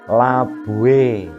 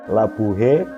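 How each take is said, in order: First: The h before the ending is faint. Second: The h before the ending is clearly pronounced. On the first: The speaker calls it right. "H terucap samar" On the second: The speaker calls it wrong. "Jadi bukan"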